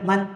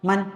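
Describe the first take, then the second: The two takes are said the same way.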